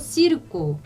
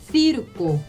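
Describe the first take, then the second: First: The c sounds like an s. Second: The c sounds like th in think. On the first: "이것도 시르코 하실 수 있고" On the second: "그 다음에 피르코 이렇게 하실 수 있어요"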